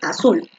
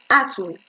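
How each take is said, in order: First: The stress is on the last syllable. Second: The stress is on the first syllable. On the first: The speaker calls it right. "la fuerza de voz está en la última" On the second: The speaker calls it wrong. "tú no dices azul"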